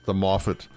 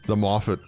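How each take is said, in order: Both takes have the same delivery.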